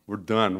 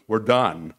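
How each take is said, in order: First: Said in the usual way. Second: Loud, falling We're done; emphatic loud done; triumphant declaration. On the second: Retold or imitated. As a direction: slam We're done down like a verdict. Attorney declares building finished.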